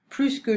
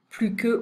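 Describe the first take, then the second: First: The S at the end of plus is pronounced. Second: The S at the end of plus is silent. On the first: It compares a verb or noun. "mais on le prononce avec un verbe et un nom" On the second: It compares an adjective or adverb. "on va pas prononcer le S hein, ici"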